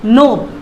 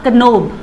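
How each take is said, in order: First: The word starts with an n sound, no k. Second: The word starts with a k sound before n. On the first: The speaker calls it right. "एन ओ बी will be the correct pronunciation" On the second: The speaker calls it wrong. "Not कनोब, वो नहीं होगा"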